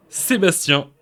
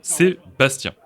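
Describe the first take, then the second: First: Sébastien said the French way, se-bas-TYAN with a nasal end; Sébastien with the final nasal vowel, stress on the last syllable; French pronunciation. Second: Sébastien in French, se-bas-TYAN with a nasal end; Sébastien with the final nasal vowel, stress on the last syllable; French pronunciation. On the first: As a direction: give Sébastien its native French sound. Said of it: "how we say it". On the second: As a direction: model the native French Sébastien for the viewers. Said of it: "That's, uh, how we say it". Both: Shown as a demonstration.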